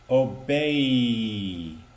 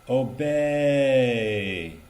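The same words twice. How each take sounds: First: The eh part of the vowel is cut short. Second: The eh part of the vowel is held long. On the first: The speaker calls it wrong. "Not obey" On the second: The speaker calls it right. "we need to be on the eh part of the word longer"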